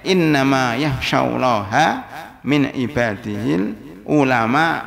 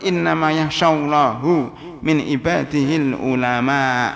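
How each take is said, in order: First: The word Allah ends with an 'a' vowel. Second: The word Allah ends with a 'u' vowel. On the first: Allah is the one feared. The speaker calls it right. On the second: Allah becomes the one who fears. The speaker calls it wrong.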